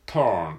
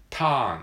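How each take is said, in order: First: "turn" with a clear curled American r; r-colored turn. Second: "turn" said flat like katakana "tān", no r; katakana-style turn. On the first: Teacher demos the English-sounding "turn" with its r. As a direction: bend the vowel of "turn" into an r. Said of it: "ちょっと英語っぽいですね". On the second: Teacher demos the un-English "turn" without any r. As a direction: say "turn" the Japanese way, no r. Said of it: "英語っぽくないけど". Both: Shown as a demonstration.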